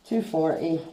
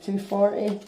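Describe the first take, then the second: First: "Two forty." settled with a falling tune; "Two forty." stated as an answer; confirming fall. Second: "two forty?" asked with a rising tune; "forty?" lifted as a question; questioning rise. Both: Real, not acted. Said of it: "what is this grade".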